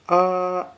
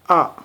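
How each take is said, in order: First: It is said with the first tone. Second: It is said with the sharp fourth tone. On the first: "the first tone pronounced like ah" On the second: "the fourth tone pronounced like ah. This kinda sharp"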